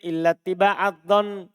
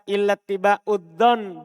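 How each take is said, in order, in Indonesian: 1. Kata setelah illa berakhir dengan vokal a. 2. Kata setelah illa berakhir dengan vokal u. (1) "Orang Hijaz mewajibkan nasab" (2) "birofa, dibaca rofa"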